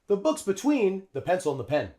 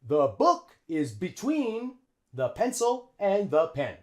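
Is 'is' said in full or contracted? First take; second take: contracted; full. First: The word 'is' is contracted onto 'book'. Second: The word 'is' is said in full. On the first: The speaker calls it right. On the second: The speaker calls it wrong.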